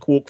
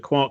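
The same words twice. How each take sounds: First: The vowel rhymes with 'Mork'. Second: The vowel rhymes with 'Mark'. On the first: The speaker calls it wrong. "not a quark for Mister Mork" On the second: The speaker calls it right. "I presume it was a quark for Mister Mark"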